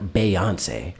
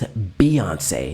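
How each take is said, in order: First: The first syllable has an 'ay' vowel. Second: The first syllable has an 'ee' vowel. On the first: The speaker calls it wrong. "not [name]. ... Why are we putting in an A sound?" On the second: The speaker calls it right. "Her name is [name]"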